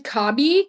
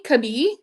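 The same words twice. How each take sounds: First: "Kabi" said KAH-bee; first-syllable stress. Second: "Kabi" said kuh-BEE, rising; reduced first vowel, "Kabi" as kuh-BEE; second-syllable stress. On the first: Reading out a brand name, "Kabi" as KAH-bee. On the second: Unsure of a brand name, trying "Kabi" as kuh-BEE. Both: Real, not acted.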